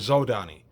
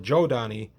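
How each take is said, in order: First: The name begins with a plain 'z' sound. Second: The name begins with a 'j'-like sound. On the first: This is how the speaker's group read it. "I use Zodani because that's how my group always pronounced it" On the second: This is how many other people say it. "a lot of people say Jodani"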